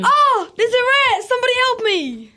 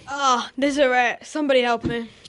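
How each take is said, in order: First: The line is said with more enthusiasm. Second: The line is said with little enthusiasm.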